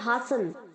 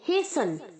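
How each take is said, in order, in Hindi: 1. लंबा 'aa' स्वर, और t की आवाज़ नहीं होती। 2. 'ay' स्वर, और t की आवाज़ नहीं होती। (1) "हम इसे हास्टन और हासन दोनों नहीं कहेंगे" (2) "हम कहेंगे हेसन"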